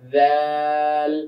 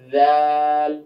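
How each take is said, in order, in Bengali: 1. এটি দাঁতের মাঝে একটি নরম ধ্বনি দিয়ে শুরু হয়। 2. এটি দাঁতের মাঝে একটি নরম ধ্বনি দিয়ে শুরু হয়।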